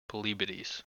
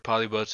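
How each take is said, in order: First: The name ends in two syllables, like 'bo-tees'. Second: The name ends in one syllable, like 'boats'. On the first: The speaker calls it right. "Pretty sure it's pronounced polybotes" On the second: The speaker calls it wrong. "I'm 100% sure polyboats is the wrong way to say it"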